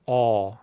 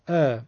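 First: The vowel is full and heavy. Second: The vowel is thin and plain. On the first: "اگه بخوام پرحجم بگم میگم" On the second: "معمولی من ا فرض بفهمید"

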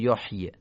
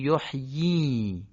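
First: The final vowel is not lengthened. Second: The final vowel is lengthened. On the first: The speaker calls it wrong. "نمیگیم یحیی یا یحیی" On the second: The speaker calls it right. "میگیم یحیی. در واقع این کسره رو اشباع میکنیم"

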